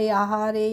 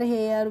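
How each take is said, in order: First: It is said as two syllables, ha-re. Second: It is said as one syllable, like 'hair'. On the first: The speaker calls it wrong. "इस तरीके से नहीं पढ़ना है" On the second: The speaker calls it right. "हमने पढ़ लिया"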